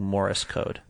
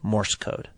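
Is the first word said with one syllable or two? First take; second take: Two; One. First: The first word has two syllables, like 'Morris'. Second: The first word has one syllable, 'Morse'. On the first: The speaker calls it wrong. "I've been saying Morris code" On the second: The speaker calls it right. "instead of Morse code"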